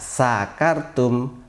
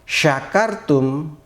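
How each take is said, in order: First: It begins with a plain s sound. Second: It begins with an sh sound. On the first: You have been drunk. The speaker calls it wrong. "kalau dibaca sakartum artinya kalian telah mabuk" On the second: You have been grateful. The speaker calls it right. "kalian telah bersyukur"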